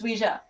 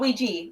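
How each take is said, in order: First: It has a French-German style pronunciation. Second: It has the common English pronunciation. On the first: The speaker calls it right. "it's Ouija. Because it's originally from French and German" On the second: The speaker calls it wrong. "It's not Ouija"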